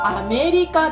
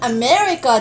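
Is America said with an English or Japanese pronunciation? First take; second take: Japanese; English. First: It is pronounced with Japanese sounds and syllables. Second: It is pronounced the way English speakers say it. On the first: The speaker calls it right. "日本語の発音は" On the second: The speaker calls it wrong. "アメリカじゃなくて"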